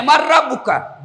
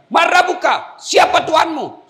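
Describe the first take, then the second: First: Laughing while echoing the shouted question; half-laughing as he reports it to God; retold question with a laugh. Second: Booming high interrogation shout; angel's shouted demand. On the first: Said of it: "Ya Allah, ada hambamu mati". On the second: Acted. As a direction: thunder the question down at the dead man. Angel interrogates the dead man.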